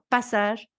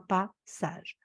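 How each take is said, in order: First: It is said smoothly as one word. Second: It is said as two separate words. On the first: A transition from life to death. "c'est un passage" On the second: A wise step. "je prononce en deux mots"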